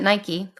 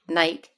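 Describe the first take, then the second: First: It is pronounced a non-British way. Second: It is pronounced the British way.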